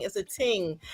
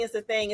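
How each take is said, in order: First: "ting" with a hard t, lightly Caribbean; a playful touch of Caribbean accent on "ting". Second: Said in the usual way. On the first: Shown as a demonstration. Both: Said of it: "in my Caribbean voice".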